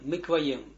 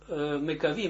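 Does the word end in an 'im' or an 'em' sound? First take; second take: em; im. First: The word ends with an 'em' sound. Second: The word ends with an 'im' sound. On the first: The speaker calls it right. "правильно, мекваем" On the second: The speaker calls it wrong. "я прочитал это так, мекавим, а неправильно"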